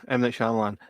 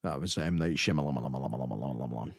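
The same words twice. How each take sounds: First: "Shyamalan" said quickly, SHAM-lan; correct pronunciation. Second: Shyamalan drawn out slowly and low, lamlamlam; stretched-out name. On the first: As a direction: say "Shyamalan" briskly as two syllables. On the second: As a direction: say "Shyamalan" slow and low, syllables looping. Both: Shown as a demonstration.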